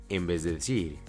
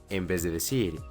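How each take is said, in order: The two takes are said the same way.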